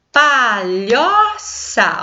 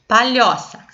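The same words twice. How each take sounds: First: "Palhoça" drawn out very slowly in three syllables, pa-lho-ça; "Palhoça" split slowly for a class, pa... lho... ça. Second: Said in the usual way. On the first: Shown as a demonstration. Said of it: "Tem três sílabas". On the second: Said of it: "já aparece a separação das sílabas".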